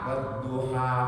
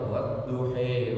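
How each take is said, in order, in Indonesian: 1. Kata ini berakhir dengan vokal 'a' terbuka. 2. Kata ini berakhir dengan vokal 'e'. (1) "kita bacanya ha, bukan he" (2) "Tidak boleh dibaca"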